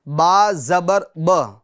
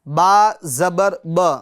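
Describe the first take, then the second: Both takes have the same delivery.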